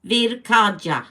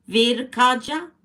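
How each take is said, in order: First: "Virkaja" slowly, sounded out, falling at the end; careful, drawn-out attempt at the name "Virkaja"; careful pronunciation. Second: "Virkaja?" slow, high and rising at the end; slow, unsure check on "Virkaja?", pitch going up; questioning pronunciation. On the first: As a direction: sound out "Virkaja" slowly and loudly, ending on a fall. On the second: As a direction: try "Virkaja?" as a question, lifting the last syllable. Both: Shown as a demonstration. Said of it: "Am I pronouncing that right?".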